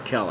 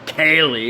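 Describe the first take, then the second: First: The name begins with a short 'eh' vowel. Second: The name begins with a long 'ay' vowel. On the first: The speaker calls it right. "I always call her Kelly. I like my version better" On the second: The speaker calls it wrong. "Somebody calling Kaylee"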